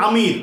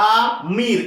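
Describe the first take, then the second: First: Said in the usual way. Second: আমির split as আ, then মির, with a gap; syllable by syllable. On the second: Shown as a demonstration. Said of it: "সবসময় উচ্চারণ করবে syllable wise".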